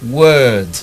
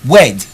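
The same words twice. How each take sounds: First: The vowel is between o and e. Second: The vowel is not between o and e. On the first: The speaker calls it right. "you heard a little o and a little e" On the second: The speaker calls it wrong. "you don't say word"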